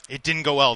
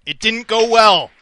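First: Said in the usual way. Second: High, loud, slow wail of woe; dramatic lament. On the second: Pretend. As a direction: mourn the loss theatrically. Dramatic payoff of sad story.

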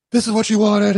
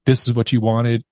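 First: High, strained mock scream at held-back volume; imitated scream. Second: Said in the usual way. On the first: Man holding the pistol amid chaos, imitated scream. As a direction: re-enact screaming, pitched way up. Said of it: "me holding the pistol, screaming".

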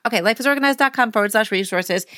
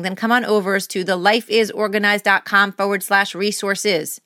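First: Said in the usual way. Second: Slightly stiff robotic read of "then come on over to the lifeisorganized dot com forward slash resources"; accidental, understated robotic announcement. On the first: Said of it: "I don't know why I'm speaking like that". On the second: Real, not acted. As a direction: deliver the web address like a mild robot, even and mechanical. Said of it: "I don't know why I'm speaking like that, like a robot".

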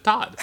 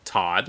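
First: "Todd" said higher, vowel his own way; own-name pronunciation. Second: Said in the usual way. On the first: Retold or imitated. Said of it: "All right, now say your name". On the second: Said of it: "which is my friend Todd's name".

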